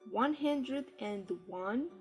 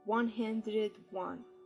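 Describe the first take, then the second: First: An 'and' is said before 'one'. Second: No 'and' is said before 'one'. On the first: "British style" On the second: "American style"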